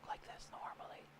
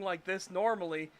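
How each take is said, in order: First: It is spoken very quietly. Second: It is spoken at normal volume. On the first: "they puts it at one percent volume" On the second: "instead of talking like this normally"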